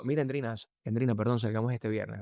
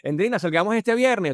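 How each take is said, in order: First: Low seductive voice. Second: High, loud invitation; wrong seduction voice. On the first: Seducing Endrina with an invitation, low resonant voice. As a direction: lower the tone to persuade, unhurried. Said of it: "esa nota de voz tiene una resonancia mucho más baja". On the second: Asking Endrina out the wrong way, high and loud. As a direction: blurt the invite out at full pitch. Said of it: "Yo, yo no te voy a decir". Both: Shown as a demonstration.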